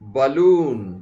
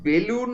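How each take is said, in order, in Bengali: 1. প্রথম সিলেবলটা 'ba' এর মতো শোনাচ্ছে। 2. প্রথম সিলেবলটা 'be' এর মতো শোনাচ্ছে। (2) "বেলুন নয়"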